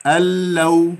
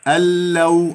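First: The n merges fully into the following l. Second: The n merges fully into the following l.

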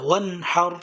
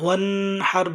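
First: The n sound is clear and short. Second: The n sound is nasalized and held. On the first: The speaker calls it right. "এই জন্য এখানে গুণনা হবে না।" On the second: The speaker calls it wrong. "এখানে গুণনা করলে হবে না, ওয়ানহার বললে ভুল হবে"

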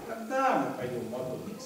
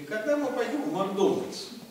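First: The stress falls on the word когда. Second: The stress falls on the word Макдональдс. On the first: "можно на когда сделать акцент" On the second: "а можно на Макдональдс"

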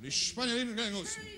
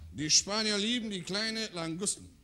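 First: It is said at a faster speed. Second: It is said at a normal speed.

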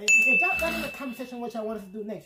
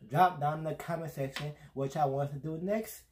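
First: It is said at normal speed. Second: It is said slowly.

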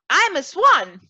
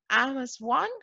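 First: The voice sounds loud and confident. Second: The voice sounds doubtful and unsure. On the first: She really believes it. The speaker calls it right. "she said it louder. That's better" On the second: She does not yet believe it. The speaker calls it wrong. "And Trudy said doubtfully"

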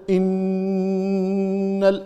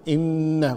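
First: The nasal sound is held for four counts. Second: The nasal sound is held for two counts. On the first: The speaker calls it wrong. "أعطيتها أربع مثلا" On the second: The speaker calls it right. "لكن هي تعطيها حركتين"

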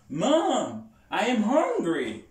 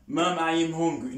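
First: It is said expressively, with lively pitch movement. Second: It is said flatly, with little pitch movement. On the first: The speaker calls it right. "Faut utiliser intonation là où on parle" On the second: The speaker calls it wrong. "C'est pas dire mom I am hungry. Non"

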